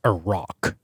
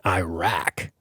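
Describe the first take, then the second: First: "Iraq" said slowly as ih-ROCK; careful, drawn-out "Iraq", rhyming with rock; corrected pronunciation. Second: "Iraq" said as eye-RACK; "Iraq" in the Americanised eye-rack way; anglicised pronunciation. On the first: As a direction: say "Iraq" with a short first vowel and an ah in rock. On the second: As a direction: say "Iraq" with a long I first and a flat rack ending. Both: Shown as a demonstration. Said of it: "as it should be pronounced".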